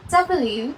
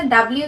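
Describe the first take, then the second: First: ডাব্লিউ as an English letter name, falling at the end; corrected English pronunciation. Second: ডাব্লিউ as people commonly say it; common local pronunciation. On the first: Teacher answering what it should be, corrected English pronunciation of ডাব্লিউ. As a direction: model ডাব্লিউ carefully as English double-u. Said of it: "সেটা কি হবে?". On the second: Teacher quoting the habitual letter name, common local pronunciation of ডাব্লিউ. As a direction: run ডাব্লিউ together the everyday way. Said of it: "যেটা বলে সেটা কি হবে?". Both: Shown as a demonstration.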